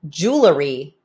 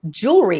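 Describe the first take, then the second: First: The word is said with three syllables. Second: The word is said with two syllables. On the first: The speaker calls it wrong. "Jewelry is not" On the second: The speaker calls it right. "This is two syllables. ... Jewelry is correct"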